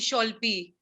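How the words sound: The name begins with sh and an o vowel. "Bengali people they used to call me Sholpi"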